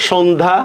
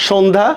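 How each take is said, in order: Both takes have the same delivery.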